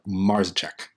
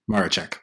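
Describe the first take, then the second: First: The name is said with a z sound. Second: The name is said without a z sound. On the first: The speaker calls it wrong. "You said you had a little bit of the Z in there" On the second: The speaker calls it right. "you don't pronounce the Z"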